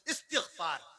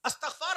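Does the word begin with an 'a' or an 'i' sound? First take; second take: i; a. First: The word begins with an 'i' sound. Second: The word begins with an 'a' sound. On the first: The speaker calls it right. "सही तलफ्फुज़ है इस्तिगफार" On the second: The speaker calls it wrong. "अस्तगफार ना कहा कीजिए"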